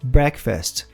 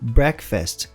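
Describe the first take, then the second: Both takes have the same delivery.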